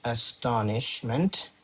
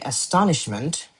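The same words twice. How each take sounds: First: "astonishment" slow and softer, syllable by syllable; "astonishment" drawn out quietly; slow dictation. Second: Said in the usual way. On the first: Shown as a demonstration. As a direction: spell out "astonishment" by sound while writing. Dictating the word while writing.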